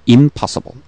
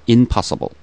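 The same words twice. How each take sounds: First: The word begins with an 'im' sound. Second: The word begins with an 'in' sound. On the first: The speaker calls it right. "in을 im으로 고쳐주면" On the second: The speaker calls it wrong. "발음이 약간 부자연스럽다"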